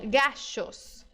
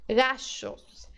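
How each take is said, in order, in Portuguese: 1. A consoante do meio soa como o sh do inglês. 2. A consoante do meio soa como o sh do inglês.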